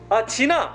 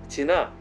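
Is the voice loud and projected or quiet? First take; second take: loud; quiet. First: It is said loudly, projected from the diaphragm. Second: It is said quietly, in a normal speaking tone.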